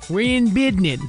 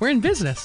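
First: The last word is said in a clipped, altered way. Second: The last word is said fully and normally.

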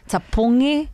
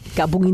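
First: The word begins with a T sound. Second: The word does not begin with a T sound. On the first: The speaker calls it right. "You could just say it with a T" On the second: The speaker calls it wrong. "It is wrong"

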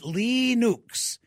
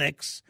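First: It sounds like 'Leenooks', with ee and oo vowels. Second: It is said with the usual American vowels. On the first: The speaker calls it right. "If we pronounced it correctly, we would be calling it Linux, and it would be spelled Leenooks" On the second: The speaker calls it wrong. "here in America, we just call it Linux"

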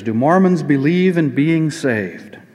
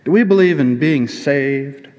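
First: It is said in a plain, normal voice. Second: It is said with a put-on twang.

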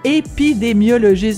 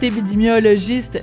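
First: The word is pronounced clearly and carefully. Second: The word is pronounced in a garbled way. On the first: The speaker calls it right. "je vais le répéter" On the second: The speaker calls it wrong. "je l'ai dit tout croche"

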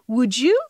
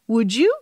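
First: The d and y merge into a j sound. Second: The same.

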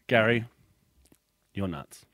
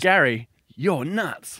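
First: The tone is dismissive and insulting. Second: The tone is warm and admiring. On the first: The person is really thought crazy. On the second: It is a compliment.

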